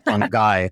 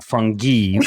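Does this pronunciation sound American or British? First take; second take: American; British. First: It is said the American way, like 'fun guy'. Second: It is said the British-sounding way.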